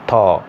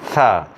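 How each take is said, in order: First: The first sound is a sudden plosive release. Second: The first sound is continuous hissing friction. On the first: This is the Bangla sound. "pronounced uh, with plosion, fast, fast and tight touch" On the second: This is the English sound. "We should create friction like tha"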